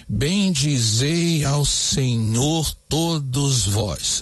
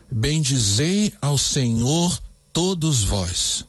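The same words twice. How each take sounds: First: Very slow, every syllable separated; slow even scansion, no stress; syllable counting. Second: Slow, with the tonic syllables of "Bendizei ao Senhor todos vós" leaned on; slow verse read with "zei", "nhor", "to" and "vós" hit harder; stressed syllables marked. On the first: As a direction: count each syllable evenly. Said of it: "vamos contar". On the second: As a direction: bring out the rhythm of the strong beats in "Bendizei ao Senhor todos vós". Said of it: "Perceba onde estão as tônicas". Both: Shown as a demonstration.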